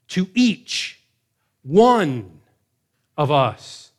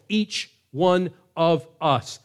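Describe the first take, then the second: First: EACH and ONE punched loud, rising to one; preacher driving home "To each one of us"; stress on each one. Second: "each one of us" drawn out slowly, weight on "one"; slow it down and lean on "one"; preacher repeating "each one of us" slowly; slow emphatic repeat. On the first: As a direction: hit "each" then land hard on "one". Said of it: "Double emphasis". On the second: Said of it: "Double emphasis on the individual". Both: Shown as a demonstration.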